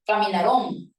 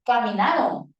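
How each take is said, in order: First: Caminaron stressed on the final RON; acento aguda. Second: Caminaron stressed on NA; acento grave. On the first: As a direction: hit the last syllable, caminaRÓN. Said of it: "y ahora como aguda". (caminaron como aguda, golpe en RÓN) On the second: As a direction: hit the NA in caminaron. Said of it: "Ahora mueve el acento aquí". (caminaron con acento en NA) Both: Shown as a demonstration.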